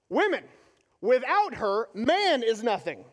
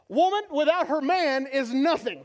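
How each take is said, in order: First: There are pauses around 'without her'. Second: It is said with no pauses inside.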